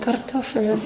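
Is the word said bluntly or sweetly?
sweetly. It is said in a sweet, gentle tone. The speaker calls it right. "So, schön"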